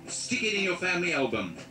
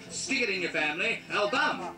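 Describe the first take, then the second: First: The word album is said with normal first-syllable stress. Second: The word album is stressed loudly on its last syllable. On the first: "your line is quite simply" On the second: "We shall emphasize the word album"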